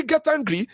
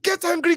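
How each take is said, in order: First: Said in the usual way. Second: "get" hochgezogen und betont; stress on get. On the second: Shown as a demonstration. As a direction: push the word get up high.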